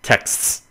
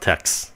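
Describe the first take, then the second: First: Said slowly, with a clear final 's' hiss. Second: Said fast, ending clipped so it sounds like 'text'. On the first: "Khi mà mình nói hơi chậm tí xíu thì mình cũng phải tập lại cái âm xì xì" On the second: "Mình nói nhanh, mình nói gọn, mình ăn gian được"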